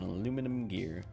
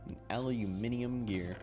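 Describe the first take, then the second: First: The word has four syllables: a-lu-mi-num. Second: The word has five syllables: a-lu-mi-ni-um. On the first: "I'm going to pronounce it as both" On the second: "I'm going to pronounce it as both"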